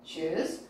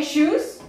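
First: "Shoes" much lower and softer, rising at the end; echoed repetition. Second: "Shoes" said clearly as a prompt with a rising end; model for repetition. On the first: Teacher answers as the class repeating, low soft echo. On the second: Teacher leads the class in repetition, prompting clearly. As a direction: call out "Shoes" for the class to copy. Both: Shown as a demonstration. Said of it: "First of all, repetition".

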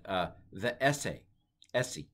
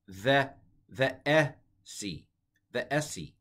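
First: Slow "the esse", "esse" with a light rise; Koine pronunciation. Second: "esse" said slowly, "the" drawn out with an "th" sound; Koine pronunciation. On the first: Teacher repeating Koine "the esse" for the class. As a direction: say "the esse" again, carefully. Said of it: "So delta at the time of the New Testament was pronounced the". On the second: Teacher modelling New Testament Greek "the esse" slowly. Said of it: "That doesn't sound at all like the esse". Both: Shown as a demonstration.

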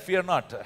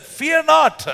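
First: Said in the usual way. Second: High, loud, commanding Fear not; bold prophet. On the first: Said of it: "How many times do we say that?". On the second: Acted. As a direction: declare it like a fearless prophet. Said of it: "And he answered".

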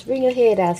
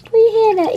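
First: Said in the usual way. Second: Much higher and louder sing-song call; loud high coaxing. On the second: Real, not acted. A grandma coaxing her pet out of his shell, loud and high.

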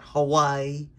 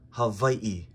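First: Hawaii with a w and run-together ending; Hawaii the common way. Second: Slow Hawaii with the two i's separated; Hawaii split up, w as v. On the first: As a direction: say Hawaii as "huh-WHY-ee". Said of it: "So it's not Hawaii". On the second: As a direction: say Hawaii as "ha-VAI-ee", breaking before the last i. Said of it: "supposed to split it up". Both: Shown as a demonstration.

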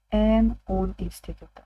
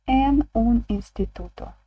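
First: Said in the usual way. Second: En un instituto said slowly, En stressed; careful teacher read of En un instituto; slow model phrase. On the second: Shown as a demonstration. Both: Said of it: "Як ми скажемо".

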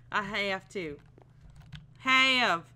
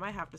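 First: Put-on drawled accent stretching HAVE, getting louder. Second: Said in the usual way. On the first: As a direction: lean into a silly accent on "have". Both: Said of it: "these accents".

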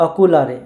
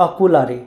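The two takes are said the same way.

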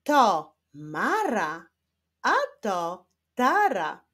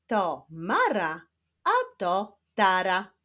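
First: Very slow word-by-word reading. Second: Careful reading at a slightly brisker pace; quicker reading. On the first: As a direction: draw out each word with pauses. (bardzo wolne czytanie z pauzami) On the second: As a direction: read clearly with shorter gaps. (trochę szybsze, wyraźne czytanie) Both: Shown as a demonstration. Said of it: "ale w szybszym tempie".

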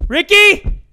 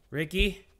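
First: Loud, high searching holler; raised hollered question; calling out. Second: Soft, wary call into the dark; quiet questioning call; timid calling. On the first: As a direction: call the name across the ship. Calling out for game character. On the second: Timidly calling game character in dark. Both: Real, not acted.

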